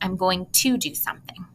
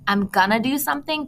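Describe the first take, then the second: First: 'Going to' is said fully and clearly. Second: 'Going to' is reduced to 'gonna'. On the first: The speech is formal and precise. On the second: The speech is informal and less precise. "the difference between saying"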